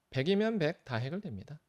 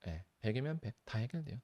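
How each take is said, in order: First: 백이면 stressed, said louder and higher with a falling end; emphatic claim. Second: Said in the usual way. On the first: Shown as a demonstration. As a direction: punch 백이면 and land 해결됩니다 firmly. (백이면을 힘주어 강조하며 단호하게)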